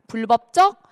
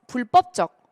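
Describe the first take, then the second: First: The second syllable starts with a plain b sound. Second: The second syllable starts with a tensed pp sound. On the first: This is the standard pronunciation. "왼쪽이 원칙" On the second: This pronunciation is also permitted. "오른쪽이 허용이에요"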